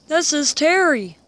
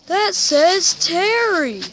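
First: Raised, louder surprise; surprised. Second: Higher, louder, slower amazement; amazed. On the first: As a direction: notice the name with a jolt. Surprised at a name. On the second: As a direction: stretch out the name in wonder. Repeated, more amazed. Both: Real, not acted.

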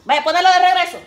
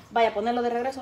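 First: Louder, higher repeat; louder second take of same order; louder insistent. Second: Said in the usual way. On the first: Real, not acted. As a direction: insist firmly.

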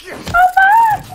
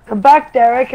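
First: High, loud call after him; yelling. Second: Said in the usual way. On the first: Real, not acted. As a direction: shout it out after someone running off.

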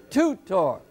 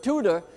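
First: "tutor" split in two, first syllable leaning heavy; stress on first syllable. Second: Said in the usual way. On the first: Shown as a demonstration. Teacher showing where the accent falls, "tutor" stressed on the first syllable. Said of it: "the accent on the first syllable". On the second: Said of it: "we pronounce it tutor".

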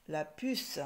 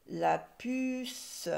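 First: Said in the usual way. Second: "puce" held high and long; drawn-out word. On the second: Shown as a demonstration. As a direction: stretch the vowel and final s of "puce". Teacher sounding out the word.

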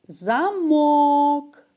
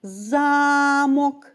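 First: Замок with МОК stressed, drawn out: за-МОК; замок, lock, second syllable held. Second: Замок with ЗА stressed, drawn out: ЗА-мок; Замок, castle, first syllable held. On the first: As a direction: lean hard on the last syllable of замок. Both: Shown as a demonstration. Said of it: "Ще раз послухайте".

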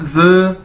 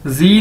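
First: "ज" said as a buzzed zuh, no ee; correct pronunciation. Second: "जी" said zee with a long ee; wrong pronunciation. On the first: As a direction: model "ज" as z with a short neutral vowel. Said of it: "इसको क्या कहना है". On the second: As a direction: show the mistake "जी", like the English letter zee. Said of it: "नहीं इसको कहना". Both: Shown as a demonstration.

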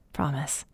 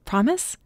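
First: Low, very soft, falling "Promise"; quiet, intimate "Promise" in reply; tender assurance. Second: "Promise" lifted high at the end; a hopeful upward "Promise"; questioning. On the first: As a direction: give your word in a hushed lower voice. He answers her with his promise. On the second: She asks him to promise. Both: A narrator's reading.

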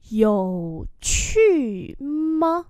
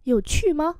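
First: Very slow, elongated syllables; syllable-by-syllable model; slow demonstration. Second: Said in the usual way. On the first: Shown as a demonstration. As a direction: stretch out each tone for learners. Teacher repeats slowly for learners.

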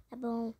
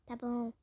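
The two takes are said the same way.

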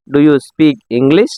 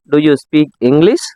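First: "Do you speak English?" said slowly and spaced out; slow it down so learners can copy; slower repeat. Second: Said in the usual way. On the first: Shown as a demonstration. Teacher repeats slowly for learners to copy. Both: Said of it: "நீங்களும் என்னோட சேர்ந்து சொல்லிட்டு வாங்க".

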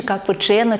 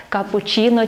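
First: Капучино with a hard "chy" before "но"; hard "chy" pronunciation. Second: Капучино with a soft "chee" before "но"; soft "chi" pronunciation. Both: Shown as a demonstration. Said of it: "вживається через літеру".

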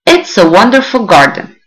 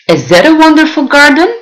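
First: Said in the usual way. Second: "Is it a wonderful garden?" asked with the voice rising high at the end; asking question. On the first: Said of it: "Since it is a question". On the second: Shown as a demonstration. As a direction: ask it as a real question, pitch up on "garden". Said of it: "I am trying to ask you all".

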